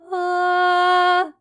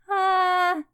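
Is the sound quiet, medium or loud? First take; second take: medium; quiet. First: It is a somewhat louder sound. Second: It is a small, quiet sound.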